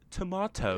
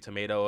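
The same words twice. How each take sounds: First: It is said with a British pronunciation. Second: It is said with an American pronunciation.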